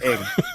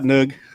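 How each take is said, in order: First: It is said as "ing", with no leading n. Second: It is said as "nug", with a vowel first. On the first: The speaker calls it right. "It's Ing" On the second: The speaker calls it wrong. "it's not Nug"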